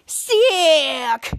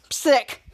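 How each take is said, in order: First: Long, drawn-out mock Scottish "Sick"; exaggerated Scottish cry of "Sick"; Scottish accent. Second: Said in the usual way. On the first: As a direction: stretch "Sick" out in imitated Scottish. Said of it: "Scottish Mary Gabrielman said".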